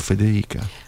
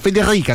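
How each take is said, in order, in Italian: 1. La r è una r morbida e arrotondata. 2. La r è una r gutturale, dura ed esagerata. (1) "non è la mia, io dico Federica" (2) "questa è quella fastidiosa"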